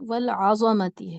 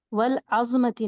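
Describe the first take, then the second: First: والعظمتی said slowly as wal-azamati, with a full vowel after the ز; slow and careful, والعظمتی with every syllable open; correct reading. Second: والعظمتی said the wrong way, with the ز clipped short; the common mistake, والعظمتی squeezed together; wrong reading. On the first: Teacher models the correct reading for students, slow والعظمتی. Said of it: "والعظمتی ہے". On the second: Teacher shows students the common wrong reading, والعظمتی clipped. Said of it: "والعظمتی نہیں ہے وہ". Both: Shown as a demonstration.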